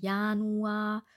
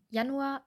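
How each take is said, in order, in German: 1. Der erste Vokal wird lang gehalten. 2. Der erste Vokal wird kurz gehalten. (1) "Wir dürfen Januar nicht lang aussprechen" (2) "sondern Januar war wunderbar"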